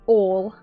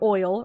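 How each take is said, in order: First: It is said in a North Carolina accent. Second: It is said in a standard accent.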